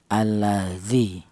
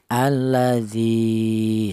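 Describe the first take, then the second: First: The vowel after the d is short, one beat. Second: The vowel after the d is long, two beats. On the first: The letter has no following lengthening letter. "dibaca pendek satu harokat" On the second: The letter is followed by a lengthening letter. "maka huruf dal ini dipanjangkan"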